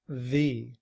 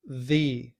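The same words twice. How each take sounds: No difference in how they are said.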